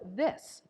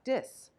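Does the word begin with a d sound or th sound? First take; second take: th sound; d sound. First: The word begins with a th sound. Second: The word begins with a d sound. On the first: "T H I S" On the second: "the lack of the sound for the letters th"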